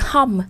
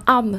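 First: "hom" with a clear breathed H. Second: "om" with the H dropped, French-style. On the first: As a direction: sound the H at the start of "hom". (đọc "hom" bật rõ âm H) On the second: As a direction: start "om" straight on the vowel. (đọc "om" không có H) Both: Shown as a demonstration. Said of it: "không đọc được hom".

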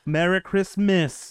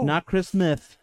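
First: CHRISTMAS said slowly with clean S sounds; "Christmas" with every S clearly sounded. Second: "Chris Smith" with the final S turned to TH; lisped S. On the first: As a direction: show off a crisp S in "Christmas". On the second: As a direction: demonstrate the old lisp on "Chris Smith". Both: Shown as a demonstration. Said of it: "I can pronounce all my S's just fine".

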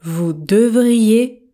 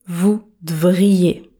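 First: Said in the usual way. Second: "vous devriez" with the E dropped, said "vous d'vriez"; contracted "vous devriez". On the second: Shown as a demonstration. Teacher shows learners the contracted form. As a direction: drop the E in "devriez". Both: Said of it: "Je ne prononce pas le E".

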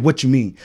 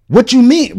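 First: Said in the usual way. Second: Higher-pitched mock challenge; confrontational. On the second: Imitating homie challenging the other man, confrontational. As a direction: mimic someone picking a fight, pitched up.

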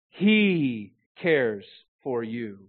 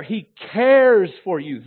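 First: He stretched out, then slow, falling words; very slow, He set apart and weighted; stress on He. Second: Cares stretched long and much louder; stress on cares. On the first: Preacher on the one who understands every particle, stress on He. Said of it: "emphasizing each of the main words". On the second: Preacher showing we could emphasize care, stress on cares. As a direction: punch cares high and loud, drawing it out. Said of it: "we could emphasize care". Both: Shown as a demonstration.

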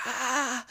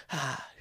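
First: Very high mock scream at modest volume; thin imitation of a scream; imitated scream. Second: Imitated scream petering out into a whisper; scream fading to whisper. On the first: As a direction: imitate her shriek, pitched way up. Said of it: "her scream started slowly coming back down". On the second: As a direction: let the imitated scream shrink to a breath. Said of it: "it kinda almost got to a whisper".

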